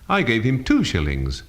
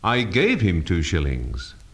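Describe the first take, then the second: First: The stress falls on the word two. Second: The stress falls on the word gave. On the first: The amount was two, not ten. "not ten" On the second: It was given, not lent. "not lent him"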